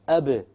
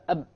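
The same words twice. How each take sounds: First: The final b ends with an echoing bounce. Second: The final b stops with no echoing bounce. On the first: It tells the listener a silent letter is there. The speaker calls it right. "You need the qalqala" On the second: The listener cannot tell what is being said. The speaker calls it wrong. "If you don't have a qalqala"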